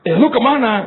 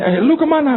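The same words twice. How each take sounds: First: High nosy gossip question; pry again, eager; gossipy lady voice. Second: High nosy gossip question; pry into her friend's trip; gossipy lady voice. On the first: Competitive church lady asks friend, high and nosy. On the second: Church lady asks a friend, high and nosy. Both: Retold or imitated.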